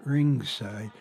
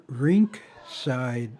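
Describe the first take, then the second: First: "ringside" with a soft ng and no k; contrasting "ring". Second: "rink side" with a distinct k closing "rink"; careful "rink". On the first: Naming the wrong word for hockey seats, "ringside" with ng, no k. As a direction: run "ring" into "side" on a nasal ng. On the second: Correcting the name of the hockey seats, "rink side" with a clear k. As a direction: separate "rink" from "side", sounding the k. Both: Shown as a demonstration. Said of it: "not ringside".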